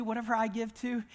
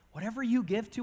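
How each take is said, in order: First: "I" lifted as the answering half of a contrast; stress on I. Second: "you" lifted as the first half of a contrast; stress on you. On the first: Preacher includes himself in the principle, stressing "I". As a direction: lean on "I" in the phrase. Contrasts own giving with listeners'. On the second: Preacher turns the principle on listeners, stressing "you". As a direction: lean on "you" in the phrase. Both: Real, not acted.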